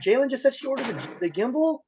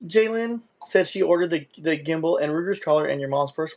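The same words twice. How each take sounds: First: High, breathless thrilled report; can't believe the news, squealing it out; overjoyed high announcement; excited squeal. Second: Said in the usual way. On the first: Real, not acted. Excited retelling of donation. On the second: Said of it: "What did I miss?".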